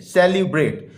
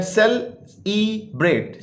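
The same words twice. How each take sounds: First: Said in the usual way. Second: सेल, ई, bread as three separate beats; teacher sounding out सेल–ई–ब्रेट in pieces; syllable by syllable. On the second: Shown as a demonstration. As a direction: pause between सेल, ई and bread. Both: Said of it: "ये three syllable word है".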